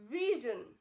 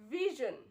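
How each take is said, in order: First: The middle consonant has a buzzing z sound. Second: The same.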